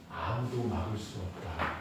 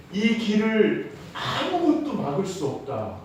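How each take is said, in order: First: Low, soft solemn pronouncement; hushed declaration. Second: 아무것도 lifted high and drawn out; slow down and raise the pitch on 아무것도; emphatic declaration. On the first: God promising his people the way, hushed declaration. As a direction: drop low and quiet with certainty. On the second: God declaring the path unstoppable, stress on 아무것도. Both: Retold or imitated.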